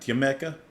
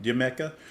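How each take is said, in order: The two takes are said the same way.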